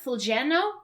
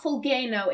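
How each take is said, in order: First: The middle consonant is a softer, non-G sound. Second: The middle consonant is a hard G sound. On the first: "it's like Fulgeno?" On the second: "It's not Fulgeno"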